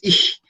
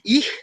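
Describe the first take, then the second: First: The ch is a strong, aspirated sound. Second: The ch is a soft, light sound. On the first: The speaker calls it right. "Es como más fuerte, más aspirado" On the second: The speaker calls it wrong. "no es tan suave"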